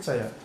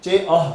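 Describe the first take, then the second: First: The parts are joined into one single word. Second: The parts are said separately, not joined together. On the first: The speaker calls it right. "उसको मिला के ही बनना पड़ेगा" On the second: The speaker calls it wrong. "ऐसा नहीं बोल सकते"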